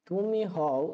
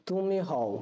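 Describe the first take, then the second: Both takes have the same delivery.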